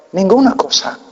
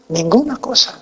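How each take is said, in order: Both takes have the same delivery.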